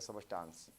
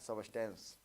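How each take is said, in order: First: The last vowel is a long 'aa' sound. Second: The last vowel is a short 'e' sound. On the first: "कोई कोई सबस्टांस पढ़ता है" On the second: "सबस्टेंस या सबस्टांस"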